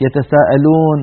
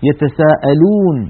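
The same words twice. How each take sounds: First: يتساءلون ending in "-loon" opened to "-lone"; يتساءلون with a slack-lipped "o"; faulty "o" vowel. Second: يتساءلون slow, ending in a long "-loon"; يتساءلون drawn out with a close "uu"; correct pure waw. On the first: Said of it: "منتشر جدًا للأسف في الفترة الأخيرة موضوع الأو". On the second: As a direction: round the lips on يتساءلون for a pure "oo". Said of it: "في أو". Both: Shown as a demonstration.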